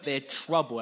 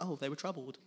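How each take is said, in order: First: "troubled" said loud and slow, with real weight; forceful, slowed stress on "troubled"; emphatic troubled. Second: Casual, understated reading of "troubled"; light, dismissive "oh", then an unbothered "troubled"; mock mild concern. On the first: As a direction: lean hard on "troubled" to show serious alarm. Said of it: "when you read they're troubled, it's not like". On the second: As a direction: toss off "troubled" as if it were no big deal. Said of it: "it's not like". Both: Shown as a demonstration.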